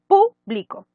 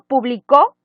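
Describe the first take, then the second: First: The stress is on the first syllable. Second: The stress is on the last syllable. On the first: It refers to people or something open to all. "Si yo le pongo el acento en como esdrújula" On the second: Someone published something in the past. "está en tiempo pasado"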